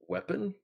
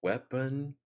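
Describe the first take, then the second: First: The word is said at normal speed. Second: The word is said more slowly.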